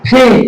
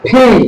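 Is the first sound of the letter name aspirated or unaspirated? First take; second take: aspirated; aspirated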